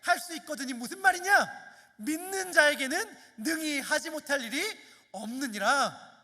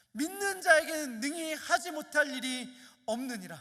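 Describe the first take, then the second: First: Higher, louder solemn proclamation, slowing on the end; Jesus' rebuke. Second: Said in the usual way. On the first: Acted. Jesus answers the doubting father with a louder, solemn rebuke. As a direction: declare it with authority. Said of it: "예수께서 이르시되". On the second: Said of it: "암송하고 암송했던 말씀".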